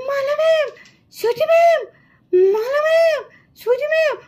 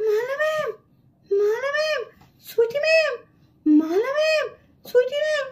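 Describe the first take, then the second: First: Mild frightened calling out; trying to call louder. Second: Weak, softer frightened calls for the teachers; voice gone from fright. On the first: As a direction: push the calls for help a little harder. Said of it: "আমি তো ঠিক করে জোরে জোরে ডাকতেও পারছি না". (ভয়ে একটু জোরে ডাকার চেষ্টা) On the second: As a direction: try to call out but the voice won't come. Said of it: "ভূত দেখে তো আমার গলার আওয়াজই বন্ধ হয়ে গেল". (ভয়ে গলা বুজে আসা দুর্বল ডাক) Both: Acted.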